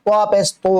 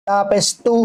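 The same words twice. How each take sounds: First: "তু" with a heavy t, vowel towards o; thick t. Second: "তু" with a light t and clear u; thin t. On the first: Teacher contrasts two t letters, thick heavy t. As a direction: fatten the "ত" of "তু" into a dark to. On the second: Teacher contrasts two t letters, thin t. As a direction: keep the "ত" of "তু" thin. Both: Shown as a demonstration. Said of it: "মোটা করে উচ্চারণ হবে".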